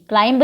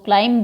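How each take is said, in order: First: The final b sound is pronounced. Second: The final b sound is silent. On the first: The speaker calls it wrong. "क्लाइंब नहीं बोलते इसको" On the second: The speaker calls it right. "बी silent रहता है"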